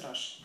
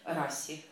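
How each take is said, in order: First: The middle consonant is a sh sound. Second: The middle consonant is an s sound. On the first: The speaker calls it right. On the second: The speaker calls it wrong.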